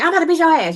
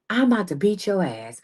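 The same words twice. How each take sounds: First: The sentence is spoken quickly and hurriedly. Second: The sentence is spoken slowly and deliberately. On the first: The speaker lacks authority. The speaker calls it wrong. "You never like" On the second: The speaker speaks with authority. The speaker calls it right. "You talk just like this. That's speaking in power"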